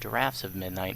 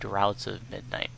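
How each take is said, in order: First: The first word rhymes with 'rafts'. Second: The first word rhymes with 'outs'. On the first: The speaker calls it right. "they are called drafts of midnight" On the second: The speaker calls it wrong. "not droughts of midnight"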